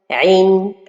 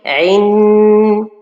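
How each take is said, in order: First: The final nasal sound is held briefly. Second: The final nasal sound is held too long. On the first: The speaker calls it right. "Or que la prononciation correcte, c'est son, عين, comme ça" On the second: The speaker calls it wrong. "Voyez, on a rajouté beaucoup de temps"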